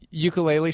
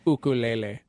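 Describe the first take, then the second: First: It has the usual English pronunciation. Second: It has the Hawaiian pronunciation. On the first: The speaker calls it wrong. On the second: The speaker calls it right. "that's the Hawaiian word"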